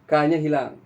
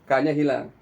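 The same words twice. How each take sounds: Both takes have the same delivery.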